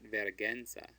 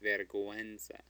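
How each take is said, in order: First: The u after the g is silent. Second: The u after the g is pronounced. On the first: The speaker calls it wrong. "It's not vergüenza" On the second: The speaker calls it right. "we want to pronounce it"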